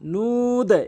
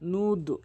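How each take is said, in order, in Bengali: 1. স্বরধ্বনিটি টেনে দীর্ঘ করে বলা হয়। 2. স্বরধ্বনিটি হ্রস্ব করে বলা হয়। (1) "তিন আলিফ টেনে এরকম উচ্চারণ করবে" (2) "নুদ এরকম না"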